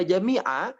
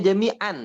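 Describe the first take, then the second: First: The word ends with a lengthened a vowel. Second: The word ends with an n sound. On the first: The reader stops on this word. "ketika Bapak wakaf pada jami'a, maka hukum pada a di sini jadi mad iwad" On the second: The word is read in the middle of a verse. "aslinya jami'an"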